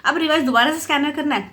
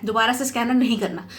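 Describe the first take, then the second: First: Said in the usual way. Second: नहीं given the main weight, falling tune at the end; firm correction with नहीं stressed. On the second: Shown as a demonstration. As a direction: lean on नहीं to correct yourself.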